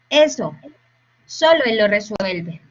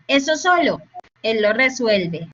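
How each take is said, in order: First: The pause comes after the word eso. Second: The pause comes after the word solo. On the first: Only he can solve it. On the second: He alone is not implied; that thing by itself gets solved.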